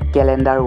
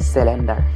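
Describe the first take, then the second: First: The word begins with a K sound. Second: The word begins with an S sound. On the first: The speaker calls it right. "কেলেণ্ডাৰ ৱৰ্ডটোক" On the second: The speaker calls it wrong. "আৰু কেলেণ্ডাৰ ৱৰ্ডটোক চেলেণ্ডাৰ"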